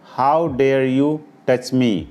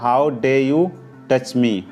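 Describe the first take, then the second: First: The r at the end of dare is pronounced. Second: The r at the end of dare is silent.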